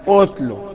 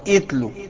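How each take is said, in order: First: The word begins with a 'u' vowel. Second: The word begins with an 'i' vowel. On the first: The speaker calls it right. "لا اتلو بالضم" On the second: The speaker calls it wrong. "اوعى تقول اتلو"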